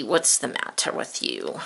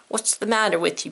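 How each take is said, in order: First: Much lower, gruff cartoon pirate asking back. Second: Said in the usual way. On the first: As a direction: drop way down into a pirate voice. Pirate echoes teacher's question.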